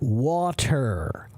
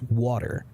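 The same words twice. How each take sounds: First: It is said slowly with a hard T sound. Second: It is said quickly with a soft D sound. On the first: "When we speak slowly, it is water, hard T" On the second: "When we speak quickly, it's water, soft D"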